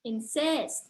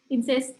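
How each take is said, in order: First: Flowing syllables with one clearly stressed syllable. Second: Short, even syllables with no clear stress. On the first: The speaker calls it right. "lebih flowy" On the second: The speaker calls it wrong. "kayak pendek-pendek"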